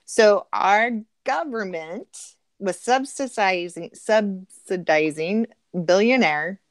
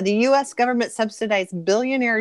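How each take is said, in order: First: Slow, weighted "subsidizing"; emphatic restatement. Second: Said in the usual way. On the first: Real, not acted. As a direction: draw out "subsidizing" syllable by syllable. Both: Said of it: "let me say that again".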